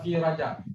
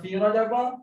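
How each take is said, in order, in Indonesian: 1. Kata terakhir berakhir dengan konsonan saja. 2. Kata terakhir berakhir dengan vokal -a. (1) "jalan selamat" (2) "sepatutnya yang ni fi rajaba"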